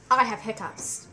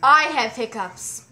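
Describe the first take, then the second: First: Said in the usual way. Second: Firm self-talk; firm, slow and loud. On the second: Shown as a demonstration. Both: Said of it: "say firmly to yourself".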